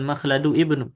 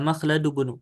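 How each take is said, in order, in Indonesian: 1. Kata 'ibnu' dimulai terpisah dengan 'i'-nya. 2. Kedua kata menyambung tanpa 'i' di awal. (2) "ini yang betul bacanya"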